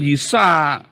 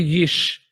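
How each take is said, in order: First: Yisa with an added open a at the end; wrong reading. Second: Yish closed on a sh, no final vowel; correct reading. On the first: Teacher rejects a misreading, demonstrating two-syllable Yisa. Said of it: "Ini bukan Yisa". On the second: Teacher corrects the misreading, demonstrating one-syllable Yish. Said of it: "tapi Yish". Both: Shown as a demonstration.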